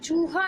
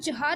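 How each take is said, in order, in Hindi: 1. 'u' स्वर बड़ा और खिंचा हुआ है। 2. 'u' स्वर छोटा और झटके से बोला गया है। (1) "ये चूहा है ना" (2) "अगर हम चूहा बोलते इसको तो ... छोटे ऊ की मात्रा होती"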